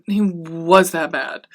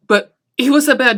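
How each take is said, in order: First: He "was" that bad, slowly, with "was" held and leaning down; slow and deliberate, landing on "was"; slow stress on was. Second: But he "was" that bad, with "was" punched higher and louder; stress on was. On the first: She repeats her verdict on Louis to her viewers, slowly stressing "was". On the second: She insists to her viewers that Louis truly was that bad, pressing on "was". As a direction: hit the word "was" hard and high. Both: Real, not acted.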